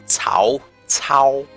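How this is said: The name is said with a Chinese pronunciation. The speaker calls it right. "That's Chinese for you"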